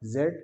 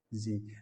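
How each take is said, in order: First: The letter is said as zed, British style. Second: The letter is said as zee, American style.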